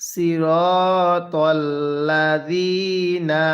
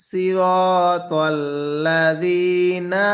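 No difference in how they are said.

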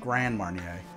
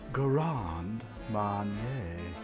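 First: It is said in an everyday accent. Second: It is said in a posh mid-Atlantic accent. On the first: "I always pronounce it" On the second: "We pronounce it in the mid-Atlantic style with round tones"

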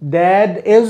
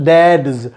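First: It is said as two full separate words. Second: It is contracted into one syllable ending in s. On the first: "Dad is का pronunciation हो जाता है dads" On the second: "Dad is dad's"

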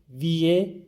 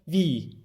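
First: An extra e sound follows the i. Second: A single long i with no e. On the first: The speaker calls it wrong. "E'yi duymayacağız. Yani ağzımızdan e, viye şeklinde çıkmayacak" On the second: The speaker calls it right. "İki tane i varmış gibi okuyalım bunu"

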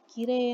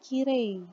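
First: The final i sound is said lightly. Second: The final i sound is said fully. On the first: The speaker calls it right. "i-nya tipis ya" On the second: The speaker calls it wrong. "Bukan kirei"

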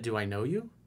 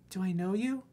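First: It is said in the speaker's normal voice. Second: It is said in a put-on girl's voice.

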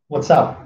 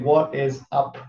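First: The first two words are contracted together. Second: Every word is said in full.

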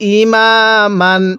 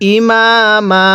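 First: The word ends with an n sound. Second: The word ends on a drawn-out long vowel. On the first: The reading continues without stopping. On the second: The reading stops at this word.

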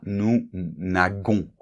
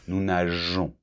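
First: The g is pronounced as a hard g. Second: The g is pronounced as a soft j. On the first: The speaker calls it wrong. "para evitar que sea" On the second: The speaker calls it right. "se pronuncia como si fuera una J"

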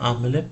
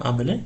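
The two takes are said the same way.

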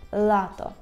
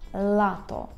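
The two takes are said the same way.

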